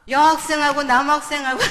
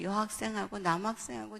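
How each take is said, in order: First: Loud, higher-pitched accusation; acted scolding. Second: Said in the usual way. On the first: Mother confronts child about boy and girl picture, loud scolding. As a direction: throw it out as an outraged parent's accusation.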